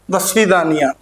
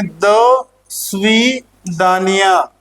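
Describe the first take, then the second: First: Said in the usual way. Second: दसवीं दानिया stretched slowly, piece by piece; syllable by syllable. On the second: Shown as a demonstration. Teacher reading the Russian goodbye with the class, दसवीं दानिया slowly split up. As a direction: break दसवीं दानिया into slow, drawn-out parts. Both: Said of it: "इसको साथ में पढ़ेंगे".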